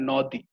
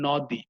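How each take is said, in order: First: নদী with an open ɔ after the ন, "nɔdi"; wrong open vowel. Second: নদী with a closed o after the ন, "nodi"; correct closed vowel. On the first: Teacher shows students the wrong way, open-vowel নদী. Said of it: "আমরা কিন্তু নিশ্চয়ই বলি না নদী". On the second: Teacher gives students the right form, closed-vowel নদী. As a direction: say নদী properly, first vowel rounded to o. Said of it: "আমরা বলি হচ্ছে নদী". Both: Shown as a demonstration.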